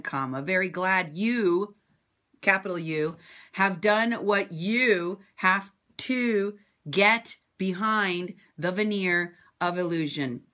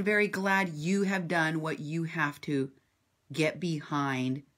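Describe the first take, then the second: First: Mocking dictation. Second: Said in the usual way. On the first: Shown as a demonstration. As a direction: spell out the punctuation to mock him. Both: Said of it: "Let me read that sentence to you again".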